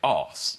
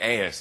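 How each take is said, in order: First: It is said in a posh British accent. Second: It is said in an American accent.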